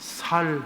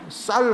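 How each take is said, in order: First: The first consonant is a plain s. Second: The first consonant is a tense s. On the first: "살 해요" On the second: "쌀 하라 그러면"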